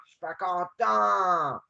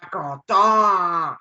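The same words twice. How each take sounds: First: Slow, drawn-out pouting complaint. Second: Loud, slow, drawn-out sulk; mock sulky character. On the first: Pretend. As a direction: pout it out slowly at normal volume. Mock sulking game character. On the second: Gamer voicing his stuck avatar, loud slow sulk. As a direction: stretch it out like a pouting cartoon.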